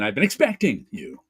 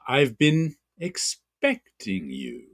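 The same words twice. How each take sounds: First: The emphasized word is said louder, not drawn out. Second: The emphasized word is drawn out, not louder.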